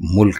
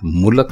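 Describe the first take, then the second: First: It has one syllable, with no vowel before k. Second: It has two syllables, with a vowel before k. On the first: The speaker calls it right. "बल्कि मुल्क है" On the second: The speaker calls it wrong. "मुलक नहीं"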